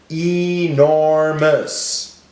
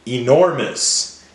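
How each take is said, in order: First: "Enormous" slowly, each syllable drawn out; broken into syllables. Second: Said in the usual way. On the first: Shown as a demonstration. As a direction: stretch "Enormous" into e, nor, mous. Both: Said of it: "Break it up".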